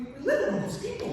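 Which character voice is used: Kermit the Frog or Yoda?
Kermit the Frog. It is said in a Kermit the Frog voice. "let's try Kermit the Frog"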